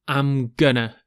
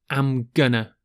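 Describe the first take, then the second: Both takes have the same delivery.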